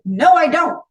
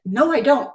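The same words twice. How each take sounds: First: Louder, higher, digging in; No, I don't pushed out hard and loud; emphatic denial. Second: Said in the usual way. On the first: Retold or imitated. Repeating her denial to her inner self, louder and defiant.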